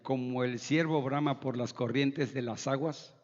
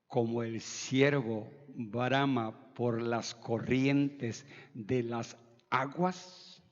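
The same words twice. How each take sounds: First: It is read fast, running the words together. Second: It is read slowly with clear, careful diction. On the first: The speaker calls it wrong. "leer así, rapidito, rapidito" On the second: The speaker calls it right. "la dicción nos lleva a leer de manera correcta"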